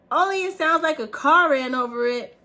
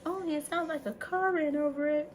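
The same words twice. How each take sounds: First: Loud, high cartoon punchline; shouted movie quote. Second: High-pitched cartoon line at normal volume; acted movie quote. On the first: Quoting Toy Story to her son afar, shouted. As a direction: belt the quote across the house. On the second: Quoting Toy Story for viewers, high-pitched movie quote. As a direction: recite the punchline up high. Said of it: "get that reference".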